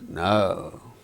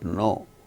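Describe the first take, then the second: First: The vowel glides from uh to u. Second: The vowel is one steady pure sound. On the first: The speaker calls it right. "it is no. ... the sound starts with weak uh, ends with u" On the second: The speaker calls it wrong. "It is not no"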